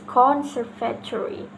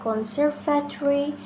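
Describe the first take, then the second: First: The stress is on a different syllable. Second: The stress is on the second syllable. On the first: The speaker calls it wrong. "the incorrect is conservatory" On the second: The speaker calls it right. "the correct one is conservatory"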